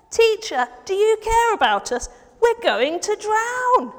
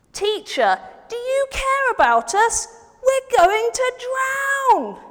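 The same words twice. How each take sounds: First: A touch less panicked, higher plea; milder plea. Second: Higher, loud and slow panicked plea; frightened plea. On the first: Friend asking Jesus again for help, milder worried plea. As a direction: ask for help, still worried but calmer. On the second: Friend begging Jesus for help in the storm, panicked slow shout. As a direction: beg the teacher for help as if drowning. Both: Acted. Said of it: "the friend went to find Jesus and said".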